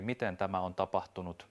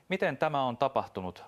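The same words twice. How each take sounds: First: Said in the usual way. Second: A higher, louder bitten-back question; barely holding in his cold rage, with MITEN pushed up high; suppressed cold anger. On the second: Acted. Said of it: "mutisi taltuttaen kylmää vihaansa". (hillitty kylmä viha)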